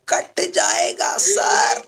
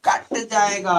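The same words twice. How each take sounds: First: High, slow answer for the students; voicing the class answer. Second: Said in the usual way. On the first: Shown as a demonstration. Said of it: "बोलो, क्या होगा?". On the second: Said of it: "क्या होगा?".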